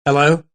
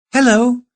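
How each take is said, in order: First: Said in the usual way. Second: Answering machine voice. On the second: Acted. Answering machine greeting, woman's voice.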